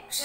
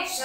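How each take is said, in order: First: "क्ष" said as a distinct k-sh cluster; teacher's careful k-sh sound on "क्ष"; correct pronunciation. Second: "क्ष" mispronounced, as a learner might; "क्ष" said as the sound to avoid; wrong pronunciation. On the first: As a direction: model "क्ष" clearly for pupils. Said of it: "इसको बोलेंगे क्ष". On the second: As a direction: show the mistaken way of saying "क्ष". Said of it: "क्ष नहीं बोलेंगे". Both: Shown as a demonstration.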